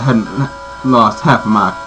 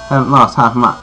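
First: It is spoken in a Southern US accent. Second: It is spoken without a Southern US accent. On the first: The speaker calls it wrong. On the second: The speaker calls it right.

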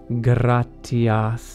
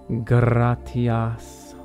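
No difference in how they are said.

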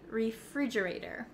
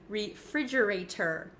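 First: The T near the end is a soft flap. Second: The T near the end is a clear T. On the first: The speaker calls it right. "it becomes a flap T in American English" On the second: The speaker calls it wrong. "we don't often say refrigerator in America"

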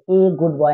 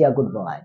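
First: The article is said as a long 'ay' sound. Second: The article is said as a short 'uh' sound. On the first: The speaker calls it wrong. "तो ए good boy नहीं" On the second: The speaker calls it right. "आप उसको he is अ good boy"

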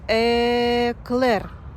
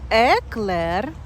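First: The word is said slowly and drawn out. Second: The word is said at normal speed.

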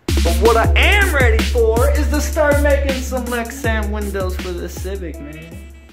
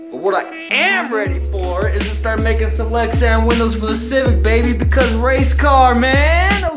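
First: It is said with calmer, lower energy. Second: It is said with very high energy.

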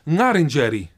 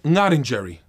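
First: The second R is rolled like an Italian R. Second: The second R sounds like an English R. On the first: This is the revitalized pronunciation, marking difference from English. "Both R's are pronounced unlike English, R as in Ferrari" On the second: This is the classical pronunciation of the name. "with the first R being as an Italian and with the second one being as in English"

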